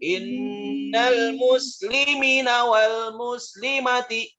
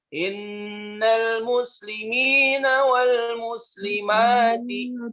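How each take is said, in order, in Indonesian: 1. Vokal yang bertanda dibaca pendek. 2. Vokal yang bertanda dibaca panjang. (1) "Tidak boleh dibaca" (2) "sudah benar, maka bacaannya benar"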